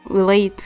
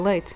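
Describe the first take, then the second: First: It imitates the friend's regional Portuguese accent. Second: It is said in the speaker's own accent.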